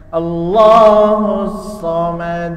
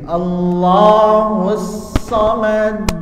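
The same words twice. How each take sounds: First: The final d ends without a bounce. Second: The final d ends with a bounce. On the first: The speaker calls it wrong. "bukan dibaca Allahus samad" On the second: The speaker calls it right. "Harus terlihat pantulannya"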